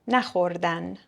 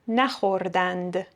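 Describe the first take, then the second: First: The word ends with an 'an' sound. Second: The word ends with an 'and' sound.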